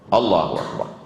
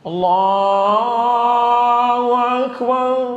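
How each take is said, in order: First: The phrase is said short and quick. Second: The phrase is drawn out with long vowels.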